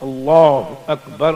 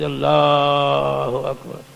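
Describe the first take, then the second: First: The vowel in 'Allah' is kept short. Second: The vowel in 'Allah' is drawn out long. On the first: The speaker calls it right. "एक लफ्ज एक दिन ठीक कराया जाए" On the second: The speaker calls it wrong. "खींचते हैं"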